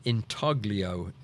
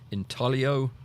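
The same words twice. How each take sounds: First: The G in the middle is sounded. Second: The G in the middle is silent. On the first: The speaker calls it wrong. "It's not pronounced that way" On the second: The speaker calls it right. "It's a silent G"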